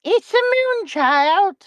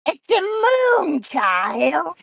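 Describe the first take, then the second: First: High, slow witchy voice; witch voice. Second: Very slow, eerie witch croon; better witch voice. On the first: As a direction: croon it like a witch. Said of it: "Did you hear my witch voice?". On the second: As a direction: draw it out like a witch. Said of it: "Let me redo that". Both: Pretend.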